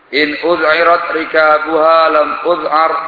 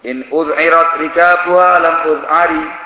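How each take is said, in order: First: The last word ends on a consonant. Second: The last word ends on an added vowel.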